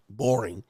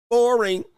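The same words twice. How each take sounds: First: Understated mock boredom; bored girlfriend. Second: High, loud mock "boring"; mocking bored call. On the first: Girlfriend judging her go-to-work partner, understated boredom. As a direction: say it bored, in an everyday pitch. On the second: Girlfriend judging her go-to-work partner, high mocking call.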